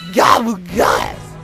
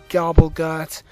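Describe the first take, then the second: First: The word is said in a silly put-on voice. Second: The word is said in a normal voice.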